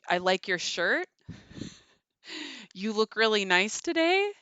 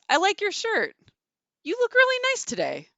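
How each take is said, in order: First: The voice rises at the end, sounding hesitant. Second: The voice falls at the end, sounding decisive.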